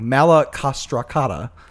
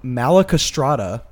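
First: The name is said with six syllables. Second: The name is said with five syllables. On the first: The speaker calls it right. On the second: The speaker calls it wrong.

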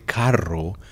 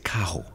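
First: The R is rolled, as in standard Spanish. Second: The R is not rolled, Puerto Rican style.

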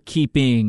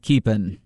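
First: The word ends with a full g sound. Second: The word ends without the g sound. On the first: "I didn't go keeping" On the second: "I felt the apostrophe. I didn't feel a G at the end"

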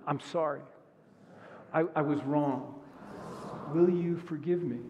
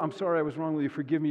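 First: It is said sincerely, with real feeling. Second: It is said carelessly, without real feeling.

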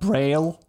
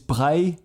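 First: The name is pronounced the English way. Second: The name is pronounced the French way. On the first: The speaker calls it wrong. "It is not Braille" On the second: The speaker calls it right. "It is Braille, because the inventor of Braille is Louis Braille, which was French"

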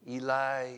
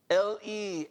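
First: The stress is on the second syllable. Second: The stress is on the first syllable. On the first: The speaker calls it wrong. "We tend to say, and I've read it like this" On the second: The speaker calls it right. "It was more of an emphasis on the first two letters"

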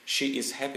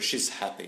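First: She and is are said as two full words. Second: She and is are merged into one syllable. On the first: The speaker calls it wrong. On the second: The speaker calls it right.

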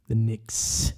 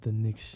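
First: The final s sound is crisp and clear. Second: The final s sound is lisped and blurred. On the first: The speaker calls it right. "I've been trying to say my S is like real" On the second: The speaker calls it wrong. "not the Knicks"

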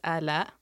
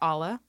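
First: The name does not sound like Allah. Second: The name sounds like Allah. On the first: This is the real pronunciation of the name. The speaker calls it right. "the correct way to pronounce my name is Ala" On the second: This is the former way the name was said. The speaker calls it wrong. "I used to go by Ala"

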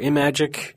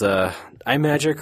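First: The name begins like the word 'imagine'. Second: The name does not begin like 'imagine'. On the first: The speaker calls it right. "because it's based on Imagine" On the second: The speaker calls it wrong. "we do not pronounce that correctly"

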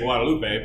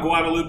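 First: The name is pronounced in a Spanish way. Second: The name is pronounced in an English way. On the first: The speaker calls it right. "If you were to say it correctly, you would say Guadalupe" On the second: The speaker calls it wrong. "I'm a Guadalupe guy, but I know that's wrong"

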